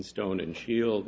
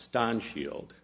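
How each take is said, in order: First: Said in the usual way. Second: "Ston" with a short O. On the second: Shown as a demonstration. Lawyer quoting the Board's pronunciation, short O in "Ston". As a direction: say "Ston Shield" with a short vowel in "Ston". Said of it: "that O should be short".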